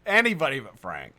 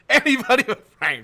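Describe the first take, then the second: First: Said in the usual way. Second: High, loud comic wail with a laugh; mock dismayed cry. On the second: Host teasing Frank over his package, mock wail. Louder comic repeat of dread.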